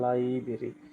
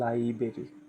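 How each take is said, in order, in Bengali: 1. প্রথম র-ধ্বনিটি বাদ দেওয়া হয়। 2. প্রথম র-ধ্বনিটি বাদ দেওয়া হয়।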